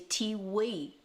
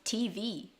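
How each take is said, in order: First: The second letter begins with a W sound. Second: The second letter begins with a V sound.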